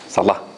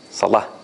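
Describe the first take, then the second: First: The vowel after the l is cut short. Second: The same.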